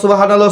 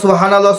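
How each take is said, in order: No difference in how they are said.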